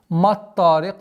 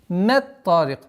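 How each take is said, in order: First: The m and its vowel sound heavy and emphatic. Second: The m and its vowel sound light and plain. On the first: The speaker calls it wrong. "Ни в коем случае не, нельзя произносить маттарик" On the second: The speaker calls it right. "твердость та не влияла на э, мягкий звук мим"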